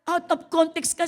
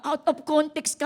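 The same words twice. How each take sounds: First: Louder, higher "Out of context ka" with stress on "ka"; rebuke. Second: Loud, high "Out of context ka"; rebuke. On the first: Pastor scolding the sister, louder and higher. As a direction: hit "ka" hard. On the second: Pastor scolding Brad, loud and high. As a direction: call it out firmly. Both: Acted. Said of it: "repeated rebuke".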